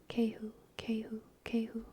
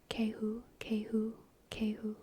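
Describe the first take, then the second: The two takes are said the same way.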